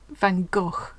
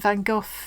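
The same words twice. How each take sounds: First: It uses a pronunciation closer to Dutch. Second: It uses the usual British English pronunciation. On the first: The speaker calls it right. "I think it's more like Van Gogh, if we said it properly" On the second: The speaker calls it wrong. "I think we don't say that right"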